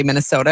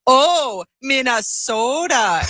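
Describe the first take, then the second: First: Said in the usual way. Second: High, drawn-out mock Minnesota accent. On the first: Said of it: "I'd say". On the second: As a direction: tease with an exaggerated long O, Minnesota-style. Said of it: "and they'd go".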